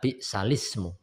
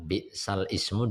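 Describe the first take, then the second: First: The words run together without any break. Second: The words are said with a glottal break. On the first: This is how the word is recited. "dibaca bi'salismu" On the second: This is how the word is written. "kalimat bi'sal ismu"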